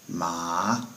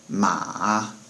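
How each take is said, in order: First: The pitch rises through the syllable. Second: The pitch dips down and comes back up. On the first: It means hemp. "is pronounced with a rising tone" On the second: It means horse. "it kind of has a little dip in it"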